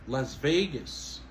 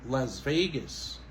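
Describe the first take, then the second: Both takes have the same delivery.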